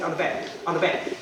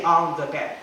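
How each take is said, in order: First: "on the bed" run together, "the" as a quick "duh"; quick "on-duh-bed", no th sound; linked sounds. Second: "on the bed" with "the" said separately; careful, separated "on the bed"; fully pronounced THE. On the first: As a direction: link "on the bed" into one chunk. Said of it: "you say". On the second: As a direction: say "on the bed" unlinked, word by word. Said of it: "don't say". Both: Shown as a demonstration.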